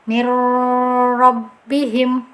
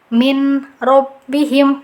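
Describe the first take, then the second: First: The merged sound is held with a nasal hum. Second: The n is pronounced clearly before the r. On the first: "bacaan yang keliru pakai dengungan seperti ini" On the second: "ada juga yang bacanya diijharkan"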